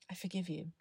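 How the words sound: It is said warmly, with sincere feeling.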